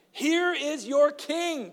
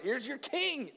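First: Very slow, much higher, stressed "Here is your king"; emphatic. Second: "Here's your king" higher but softer, falling on king; quiet echo of the line; softer repeat. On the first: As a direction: present him with weight, slowly. Preacher repeats Pilate line. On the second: Repeated after comment. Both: A narrator's reading.

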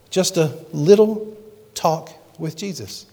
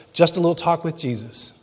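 First: Slow, each word of "Just a little talk with Jesus" drawn out; slow and tender, savouring the song title; slow, dwelt-on phrase. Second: Said in the usual way. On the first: Shown as a demonstration.

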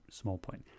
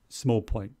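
First: Small point, much softer, under the breath; small point as a near-silent aside; muttered repeat. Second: Said in the usual way. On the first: Real, not acted. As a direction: let it fade to almost nothing.

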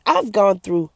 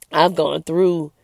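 First: Said in the usual way. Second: Slow, halting words as emotion rises; real emotion welling up, words dragged out; emotional. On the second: Real, not acted. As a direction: let the feeling slow you right down. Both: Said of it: "I'm getting a little emotional".

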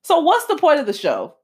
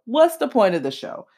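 First: Higher, exasperated question; incredulous. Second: Said in the usual way. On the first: Retold or imitated. Ranting to viewers about the show, incredulous and higher. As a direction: ask it like you can't believe it. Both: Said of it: "I'm like".

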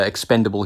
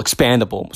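First: "expendable" said with "pen", where "expandable" with "pan" was meant; "expendable" said by mistake for "expandable"; wrong word. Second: "expandable" with a clear "pan" sound; "expandable" said right, with "pan"; corrected word. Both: Shown as a demonstration. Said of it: "Not expendable, expandable, sorry".

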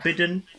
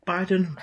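First: Biden said with a short "i", BID-en, rising. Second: Biden said with a long "eye" vowel, BYE-den. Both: Shown as a demonstration. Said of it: "is it Biden or Biden?".

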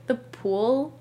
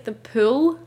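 First: "pool" with a rounded American oo; American pronunciation of pool. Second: "pool" with a short, fronted Scottish oo; Scottish pronunciation of pool. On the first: Retold or imitated. Scot imitating how Americans say it, American "pool". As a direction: say "pool" the American way, oo from the back of the mouth. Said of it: "you guys will be like". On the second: Shown as a demonstration. Scot showing how they say it at home, Scottish "pool". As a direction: say "pool" the Scottish way, close to "pül". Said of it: "But, like, we say".

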